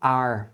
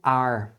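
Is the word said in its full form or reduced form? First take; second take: reduced; reduced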